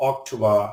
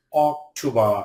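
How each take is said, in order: First: Said in the usual way. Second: "October" broken into three syllables; "October" pulled apart for learners; split syllables. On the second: Shown as a demonstration. Word split by syllable, then whole.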